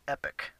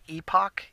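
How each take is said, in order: First: The word ends with an 'ick' sound. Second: The word ends with an 'ock' sound. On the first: The speaker calls it wrong. "I actually pronounced it wrong ... I was pronouncing it epic" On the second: The speaker calls it right. "It's pronounced epoch"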